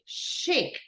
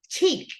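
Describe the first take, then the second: First: It begins with a sound unlike 'ch' in 'chip'. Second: It begins with the 'ch' sound of 'chip'. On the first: The speaker calls it right. "we say chic" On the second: The speaker calls it wrong. "we don't say chic"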